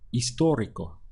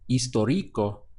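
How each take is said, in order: First: The stress is on the second syllable. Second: The stress is on the first syllable. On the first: The speaker calls it right. "the push comes over the O" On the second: The speaker calls it wrong. "which would have the stress on the I"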